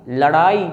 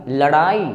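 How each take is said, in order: Both takes have the same delivery.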